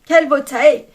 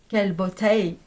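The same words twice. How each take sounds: First: Delighted exclamation. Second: Said in the usual way. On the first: Real, not acted. Admiring it again, louder.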